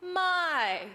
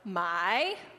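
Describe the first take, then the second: First: The pitch falls across the word. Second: The pitch rises across the word. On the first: "the falling tone. It goes" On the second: "Yours is going to go up"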